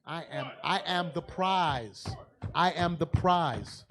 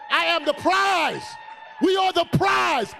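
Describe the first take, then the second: First: Slow, deliberate, each word stressed; slow emphatic declaration; slow proclamation. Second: Much higher, louder triumphant shout; shouting proclamation. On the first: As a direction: declare it slowly to the room. Preacher proclaims over music. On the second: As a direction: whip up the crowd with it. Crowd cheers, preacher shouts. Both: Real, not acted.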